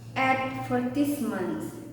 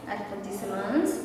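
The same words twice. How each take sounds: First: The stress is on the first syllable. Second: The stress is on a later syllable. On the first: "American English stresses the first syllables in some words" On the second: "British English may stress uh, different syllables"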